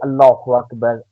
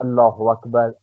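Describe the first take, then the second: First: Every sound is articulated clearly and fully. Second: The same.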